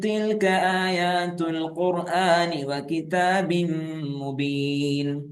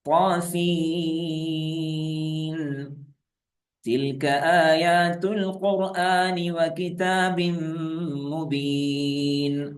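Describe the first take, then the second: First: The final n blends hidden into 'tilka' without stopping. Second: There is a stop after 'Ta Sin'. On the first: "ഇനി ആ മറച്ച് മണിച്ച് ഓതുകയാണ്" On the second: "ആദ്യം നിർത്തി ഓതാം"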